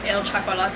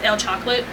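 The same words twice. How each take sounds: First: The word is pronounced with Spanish sounds. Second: The word is pronounced with English sounds. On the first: The speaker calls it right. "it's supposed to pronounce it a different way because it's in Spanish" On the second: The speaker calls it wrong. "you would see it as El Chocolate"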